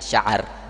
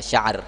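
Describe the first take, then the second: First: A short a vowel follows the middle consonant. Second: No vowel follows the middle consonant. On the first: "dengan men memfathahkan ainnya" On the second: "dengan mensukunkan ainnya"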